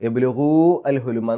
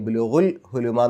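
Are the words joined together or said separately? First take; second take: separate; joined. First: The word al is said as a separate syllable. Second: The final vowel runs straight into l. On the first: The speaker calls it wrong. "എന്ന് പറയില്ല" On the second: The speaker calls it right. "എന്നാണ് പറയുക"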